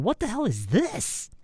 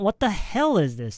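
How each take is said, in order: First: The stress falls on the word this. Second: The stress falls on the word what. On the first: The speaker calls it right. "the stress should go on is or this" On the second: The speaker calls it wrong. "Not what the hell is this? No, not not the what"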